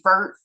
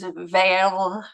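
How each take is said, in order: First: The R is a plain English R. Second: The R is a French throaty R. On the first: "I just say vert because I'm just horrible" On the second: "it's veil"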